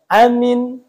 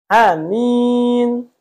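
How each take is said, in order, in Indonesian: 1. Kedua vokal dibaca pendek. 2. Vokal pertama pendek, vokal kedua panjang. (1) "Itu pendek semua" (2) "A-nya pendek, min-nya panjang"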